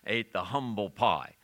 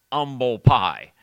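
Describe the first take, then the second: First: "humble pie" with the H sounded, HUM-bul. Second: Loud, slow "humble pie" with no H, UMBLE; H-less humble pie. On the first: Shown as a demonstration. Preacher giving today's word, "humble" with its H. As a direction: breathe a clear H onto "humble". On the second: Retold or imitated. Preacher voicing poor people's word, loud H-less "humble pie". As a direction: belt out "humble pie" starting on the vowel, UM-bul. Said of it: "they put an H on that word".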